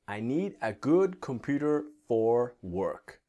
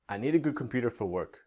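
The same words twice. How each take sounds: First: It is slower, with a full 'for'. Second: It is faster, with 'for' reduced to 'f'. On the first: "if I speak slowly, it's fine" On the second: "But if I go faster"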